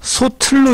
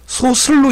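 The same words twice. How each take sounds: First: "소틀로" said [소틀로], aspirated t carried over; linked t sound. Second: "소슬로" said [소슬로], s in place of t; mistaken s sound. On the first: Teacher giving the correct reading, "소틀로" with aspirated t. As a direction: demonstrate "소틀로" clearly with t, soteullo. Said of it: "소틀로 읽어야 됩니다". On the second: Teacher quoting a common error, "소슬로" with an s sound. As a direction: demonstrate "소슬로" with s, soseullo. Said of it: "소슬로 읽는 사람이". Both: Shown as a demonstration.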